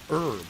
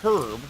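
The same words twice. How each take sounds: First: It has an American accent, H silent. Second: It has a British accent, H sounded.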